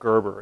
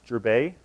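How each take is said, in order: First: The name is said with an American accent. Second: The name is said with a French accent. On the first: "Everyone's more familiar with Gerber" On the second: "I thought I'd put a French accent on it"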